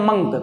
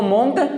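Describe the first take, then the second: First: The vowel sounds like 'uh'. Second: The vowel sounds like 'oh'. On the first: The speaker calls it right. "इसको पढ़ते हैं मंक" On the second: The speaker calls it wrong. "कभी भी इसको मोंक नहीं पढ़ते हैं"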